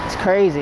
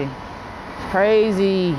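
First: Said in the usual way. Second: CRAZY stretched out very slowly, pitched high; drawn-out emphasis. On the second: Real, not acted. Vlogger telling viewers how wild this feels, drawn-out emphasis. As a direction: linger long on the word "crazy".

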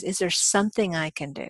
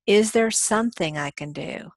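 First: "something" stressed with a falling tune. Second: Said in the usual way. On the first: Shown as a demonstration. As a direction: lean on the word "something". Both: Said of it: "And emphasize".

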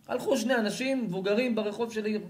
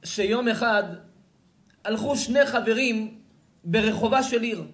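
First: Said in the usual way. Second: Loud, high declamation of scripture; Midrash recitation. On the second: A narrator's reading. Preacher reads the Midrash to his audience, declaiming loudly. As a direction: announce the ancient tale, raised and emphatic.

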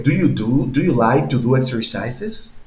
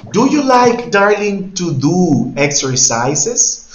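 First: Said in the usual way. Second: High, loud start, then very slow, drawn-out finish; teacher asking a student slowly; slow loud question. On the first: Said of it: "teacher repeats question". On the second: Shown as a demonstration. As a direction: stretch the question for a learner. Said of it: "teacher asks student slowly".

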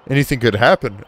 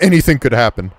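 First: A hint of an officer's warning; lightly voiced policeman. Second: Indignant echo. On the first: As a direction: read it as a mildly concerned officer. Reads the policeman's warning aloud. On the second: Pretend. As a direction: throw the warning back at the officer. Echoes the officer's words back indignantly.

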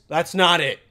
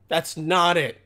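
The two takes are said the same way.

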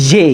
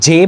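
First: "জে" as an airy "zhe", buzzing from inside; airy zh pronunciation. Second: "জে" with an ordinary hard j, as in jam; wrong pronunciation. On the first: Teacher correcting a common mistake, airy zh pronunciation. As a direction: let air flow through the first sound of "জে", like zh. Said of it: "বাতাসের মতন একটা sound আসবে". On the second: Teacher showing the mistake many make, wrong pronunciation with plain j. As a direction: say "জে" with a plain j, no airy buzz. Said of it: "এটার উচ্চারণ জে হবে না". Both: Shown as a demonstration.

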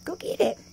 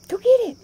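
First: Said in the usual way. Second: Excited call. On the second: Real, not acted. Urging the pet, repeated louder.

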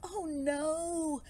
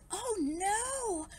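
First: Long wail, slightly raised; dismayed cry. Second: High, drawn-out cry of dismay; alarmed cry. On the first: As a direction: echo the alarm as worried fish. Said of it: "cried the fish". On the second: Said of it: "cried Barry". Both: A narrator's reading.

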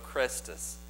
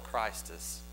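First: Christus said with an E, CRESS-tus; misspelled form. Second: Christus said with a long I, CRY-stus; correct form. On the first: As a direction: say Christus as Crestus, short E. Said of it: "He put an E instead". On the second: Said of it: "He misspelled Christus". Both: Shown as a demonstration.

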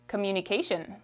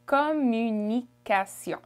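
First: Said in the usual way. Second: "Communication" slowly in French, nasal ending; French pronunciation. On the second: Shown as a demonstration. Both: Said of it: "How would you say it?".

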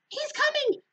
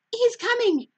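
First: Excited squeal. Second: Much higher, louder happy cry; excited cry. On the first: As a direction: squeal it, climbing up in pitch. Linus repeats his cry. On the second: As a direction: call out the news with glee. Linus sees the Easter Beagle. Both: Acted.

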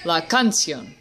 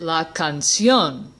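First: Canción mis-stressed on its first syllable, can-; canción said as CAN-cion, falling after. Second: Canción stressed on the final -ción; canción said as can-CIÓN; last-syllable stress. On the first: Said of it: "emphasis should be on the first syllable". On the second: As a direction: land the weight on -ción in canción. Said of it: "put the emphasis on the last syllable". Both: Shown as a demonstration.

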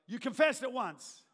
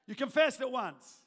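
Both takes have the same delivery.

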